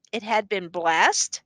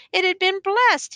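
First: "It had been blessed" slow, rising at the end; questioning echo. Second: "It had been blessed" high, falling at the end; stated report. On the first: Judge querying the accused's report, "It had been blessed" slow and rising. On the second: Accused reporting Johannes's words to the judge, "It had been blessed" stated high. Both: A narrator's reading.

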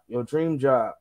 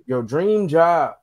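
First: Said in the usual way. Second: "dream" drawn out slowly, higher and louder; stress on dream. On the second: Acted. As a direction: lean slowly into "dream job". Repeats phrase for emphasis.

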